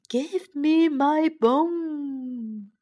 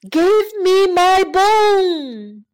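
First: It is said in a small, quiet voice. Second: It is said in a big, loud voice.

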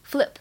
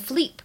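First: The vowel is a short 'i' sound. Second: The vowel is an 'e' sound. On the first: The speaker calls it right. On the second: The speaker calls it wrong.

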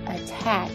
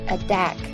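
First: The t is a clear t sound. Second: The t sounds like a short d. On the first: The speaker calls it right. "所以这个词仍然读attack" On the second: The speaker calls it wrong. "而不是attack"

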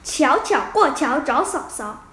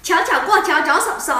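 First: It is said at a slower pace. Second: It is said at a faster pace.

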